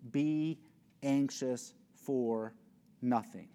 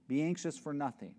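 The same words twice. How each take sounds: First: Be anxious for nothing, slow on anxious; slow scripture quote. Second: Said in the usual way. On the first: Shown as a demonstration. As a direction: let anxious stretch out. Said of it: "quoting the command". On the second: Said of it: "repeated command".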